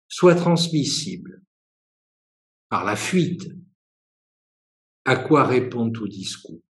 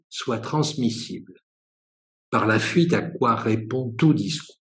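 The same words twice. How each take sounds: First: It is read at a slower pace. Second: It is read at a faster pace.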